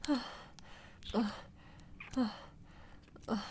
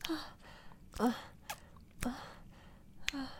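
The two takes are said the same way.

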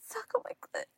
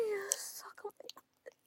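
First: Much higher, louder command; high demand. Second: High whispered plea with a cry; pleading whisper. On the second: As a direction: beg breathlessly in a whisper. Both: Acted.

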